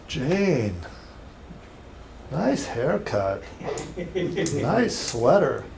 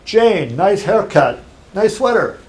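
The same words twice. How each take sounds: First: It is said in a creepy, suggestive tone. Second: It is said in a friendly, complimentary tone. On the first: The speaker is checking the person out. The speaker calls it wrong. "Pretty creepy, right? Yeah. Different tone, different inflection" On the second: It is a harmless compliment. The speaker calls it right. "It's a compliment, right?"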